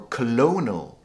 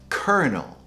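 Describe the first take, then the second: First: It is said with an 'l', like 'colonial'. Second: It is said with an 'r', like 'kernel'. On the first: The speaker calls it wrong. "often mispronounced as colonel" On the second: The speaker calls it right. "the proper pronunciation is kernel"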